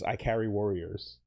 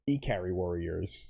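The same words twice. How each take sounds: First: Ikari sounds like the English words 'I carry'. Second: Ikari is said with Japanese-style vowels.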